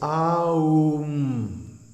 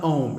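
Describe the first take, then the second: First: Each of the three sounds gets a full beat. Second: The word is said as one short syllable. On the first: The speaker calls it right. "it has three letters, A, U, M, and each one gets a full beat" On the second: The speaker calls it wrong. "don't mispronounce it Om"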